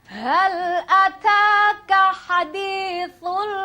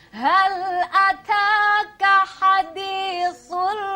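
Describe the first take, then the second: Both takes have the same delivery.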